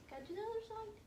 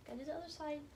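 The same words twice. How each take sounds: First: High, cooing repeat to a dog; sing-song pet talk. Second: Said in the usual way. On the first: Real, not acted. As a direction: lift it into a cutesy pet voice.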